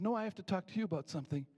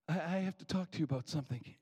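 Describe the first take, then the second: First: Higher retold waitress, leaning on "I"; insistent counter, stress on I. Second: Retold man's stammered opening, little raised; hesitant request. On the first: Waitress interrupts the worried man, insistent with stress on "I". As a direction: cut in, putting the weight on "I". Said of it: "And the waitress said". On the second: Man short of money approaches the waitress, hesitant request. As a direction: start haltingly, as the retold diner. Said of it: "I heard the man behind me say".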